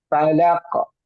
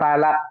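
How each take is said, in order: First: The final consonant bounces with an echo. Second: The final consonant stops flat without bouncing. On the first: The speaker calls it right. "Mantul ... tapi falaq" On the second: The speaker calls it wrong. "jangan falak"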